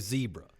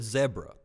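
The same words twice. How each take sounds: First: It is said in an American accent. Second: It is said in a South African accent. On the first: "we say zebra" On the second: "he said zebra"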